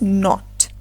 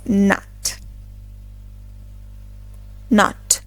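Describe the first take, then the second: First: NOT with a short, rounded O; British rounded O in "not"; British pronunciation. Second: "nut" with an open AH, like naht; American open O in "nut"; American pronunciation. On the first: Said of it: "While in British English". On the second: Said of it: "In American English". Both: Shown as a demonstration.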